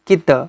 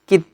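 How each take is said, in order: First: The word ends with an added vowel sound. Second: The word ends abruptly on the consonant. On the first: The speaker calls it wrong. "এরকম কিন্তু হবে না" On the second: The speaker calls it right. "কিত হবে"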